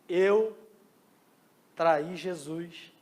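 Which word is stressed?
Eu. The stress is on "Eu".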